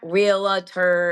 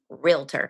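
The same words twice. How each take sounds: First: The word is said with three syllables. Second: The word is said with two syllables. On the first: The speaker calls it wrong. "It's not realtor. It's not real. It's not three syllables" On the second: The speaker calls it right. "It's just realtor"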